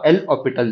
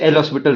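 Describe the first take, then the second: First: The s sound is silent in the name. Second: The s sound is pronounced in the name. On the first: "जब हम इसका फ्रेंच में प्रोनाउंसिएशन करेंगे" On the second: "simply इसे L हॉस्पिटल rule भी कह सकते हैं"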